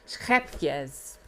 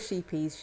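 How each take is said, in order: First: It is said with a Dutch-style pronunciation. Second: It is said with an English-style pronunciation. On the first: This is the original native pronunciation. "actually you pronounce it Schepjes, if you're Dutch" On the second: This is the casual local shop usage. "that's what British people say"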